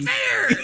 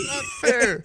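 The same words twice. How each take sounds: First: Said in the usual way. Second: Playful shout. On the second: Real, not acted. Reversing own verdict, shouting. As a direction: shout the correction.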